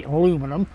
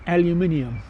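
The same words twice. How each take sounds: First: "aluminum" said the American way, a-LOO-mi-num. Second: "aluminium" said the British way, al-yoo-MIN-ee-um. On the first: For the Toronto viewer, "aluminum" said the American way. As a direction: give "aluminum" four syllables, stress on LOO. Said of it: "you want me to say aluminum". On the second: Answering the Toronto viewer, "aluminium" the British way. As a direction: give "aluminium" five syllables, stress on MIN. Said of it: "We don't say aluminum here, it's called aluminium". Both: Shown as a demonstration.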